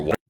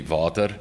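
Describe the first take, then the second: First: "water" said the Texan way, with a clear W sound; Texan pronunciation. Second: "vater" said with a V in place of the W; non-Texan pronunciation. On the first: CEO introducing the company name to the council, Texan "water". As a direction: give "water" in your best Texan accent with an American W. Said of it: "I'll use my best Texan accent".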